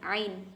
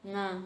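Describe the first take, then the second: First: It begins with a sound from the throat. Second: It begins with a nasal ng sound. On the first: The speaker calls it right. "Padahal yang bener ain" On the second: The speaker calls it wrong. "Biasanya orang ngapak itu bilangnya apa? Nga"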